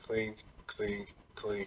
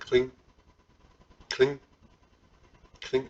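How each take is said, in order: First: The clinks follow each other quickly. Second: The clinks are spaced out more slowly. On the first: The speaker calls it wrong. "my timing was really fast. It was like" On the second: The speaker calls it right. "rather than"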